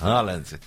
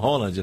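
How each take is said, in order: First: The name is said in ordinary Brazilian Portuguese style. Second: The name is said like Holland, Norwegian style.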